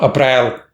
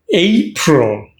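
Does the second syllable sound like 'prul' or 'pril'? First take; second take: pril; prul. First: The second syllable is a full 'pril'. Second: The second syllable is a reduced 'prul'. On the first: The speaker calls it wrong. "It's not pril" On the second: The speaker calls it right.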